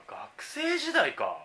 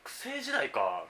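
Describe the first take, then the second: First: "学生時代か" said much higher and very slowly; an exaggerated, high, drawn-out musing. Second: Said in the usual way. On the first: Shown as a demonstration. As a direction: float it up high and stretch it out. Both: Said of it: "学生時代に買ったもの".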